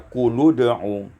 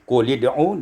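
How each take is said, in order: First: The vowel after qul is a u. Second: The vowel after qul is an i.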